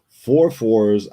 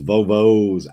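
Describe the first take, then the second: First: The words begin with an f sound. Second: The words begin with a v sound. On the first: The speaker calls it wrong. "so I didn't say it right" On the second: The speaker calls it right. "it's not f, f, it's v v"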